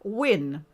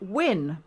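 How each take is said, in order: First: The name sounds like the English word win. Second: The same.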